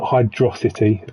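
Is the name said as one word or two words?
one word. It is run together as one word. The speaker calls it wrong.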